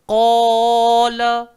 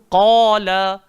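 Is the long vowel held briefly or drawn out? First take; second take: drawn out; brief. First: The long vowel is stretched out for longer. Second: The long vowel is held for a short time. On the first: The speaker calls it wrong. "tak payah baca" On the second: The speaker calls it right. "jangan lebih walau setengah harakat"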